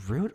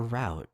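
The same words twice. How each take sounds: First: "route" with a long oo, rhyming with boot; "route" pronounced root, as one option of two. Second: "route" with an ow vowel, rhyming with out; "route" pronounced to rhyme with doubt, the other option; "route" said like rout. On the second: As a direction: say "route" as "rowt". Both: Shown as a demonstration. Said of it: "Is it route or route?".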